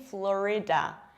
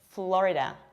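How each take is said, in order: First: The middle vowel is drawn out and long. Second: The middle vowel is said very quickly. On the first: The speaker calls it wrong. "I don't say Florida" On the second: The speaker calls it right. "pay attention to how quickly I pronounced this I"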